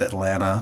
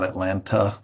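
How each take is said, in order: First: The middle T sound is left out. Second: The middle T sound is clearly pronounced. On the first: This is how locals say the city's name. The speaker calls it right. "we don't say the T" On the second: This is how outsiders say the city's name. The speaker calls it wrong. "some people put the T in there"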